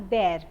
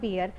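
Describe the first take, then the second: First: The vowel sounds like the one in 'air'. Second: The vowel sounds like the one in 'ear'. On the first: The speaker calls it right. "we call always call bear" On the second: The speaker calls it wrong. "and not beer"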